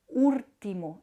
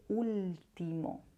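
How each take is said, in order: First: The sound after the first vowel is an r. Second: The sound after the first vowel is an l. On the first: This is how parts of Andalusia say it. "se va a pronunciar una R en lugar de la L" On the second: This is the standard form. "en lugar de"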